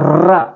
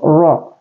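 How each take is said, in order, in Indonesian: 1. Vokalnya terdengar seperti 'a' yang tipis. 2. Vokalnya terdengar seperti 'o' yang tebal. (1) "tidak boleh ra" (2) "jangan seperti itu, tapi ro"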